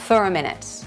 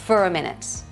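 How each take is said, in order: No difference in how they are said.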